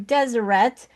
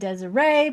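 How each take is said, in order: First: The final syllable ends in an 'et' sound. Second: The final syllable ends in an 'ay' sound. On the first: The speaker calls it right. "but it's actually Deseret" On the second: The speaker calls it wrong. "I've always pronounced it Desiree because I'm trained in French and the E T at the end is supposed to be pronounced A"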